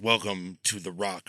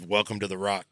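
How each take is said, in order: First: It is delivered in an overblown, dramatic way. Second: It is delivered in a plain, casual way.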